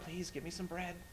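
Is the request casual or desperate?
casual. The request sounds casual and relaxed.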